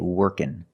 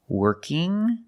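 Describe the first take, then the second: First: The ending is a plain n sound. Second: The ending is the nasal ng sound. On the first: "the ng can make the n sound" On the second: "with the ng sound"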